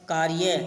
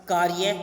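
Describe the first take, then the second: No difference in how they are said.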